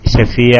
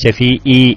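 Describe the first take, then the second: First: The final vowel follows a throaty ain sound. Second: The final vowel follows a plain glottal stop. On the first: The speaker calls it right. "ഐനായിട്ട് തന്നെ ഉച്ചരിക്കുക" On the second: The speaker calls it wrong. "ഐനുള്ളോടത്ത് ഹംസാക്കിയത്"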